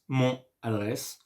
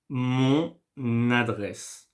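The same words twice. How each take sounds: First: The n is not carried over into adresse. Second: The n is carried over into adresse. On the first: The speaker calls it wrong. "So this is why I don't say mon adresse" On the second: The speaker calls it right. "I make the liaison with the N and the adresse"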